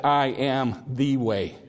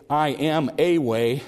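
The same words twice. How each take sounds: First: "I" weighted, slow falling "I am the way"; slow, land hard on "I"; stress on I. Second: "a" lifted in "I am a way"; stress on a. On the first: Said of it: "He said". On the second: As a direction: lean on "a", rising slow. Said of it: "he didn't say". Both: Shown as a demonstration.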